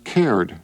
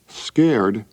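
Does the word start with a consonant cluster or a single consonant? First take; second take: single consonant; cluster. First: The word starts with a single k sound. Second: The word starts with the cluster sk.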